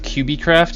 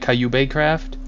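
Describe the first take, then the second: First: The first part is said like 'cube'. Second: The first part is said 'kay-you-bee'. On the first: The speaker calls it right. "instead of QBcraft" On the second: The speaker calls it wrong. "he saw the pronunciation and called it Cayubecraft"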